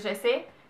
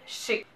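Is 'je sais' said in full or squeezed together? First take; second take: full; squeezed. First: Both words are said fully and separately. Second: The words are squeezed together into a shortened form. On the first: This is the standard form. "au lieu de dire" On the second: This is the Quebec way of saying it. "la plupart du temps on va dire"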